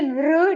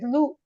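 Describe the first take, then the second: First: The sound ends with an r-like quality. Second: The sound ends with a u-like vowel. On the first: The speaker calls it wrong. "Don't say Lr" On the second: The speaker calls it right. "it is Lu"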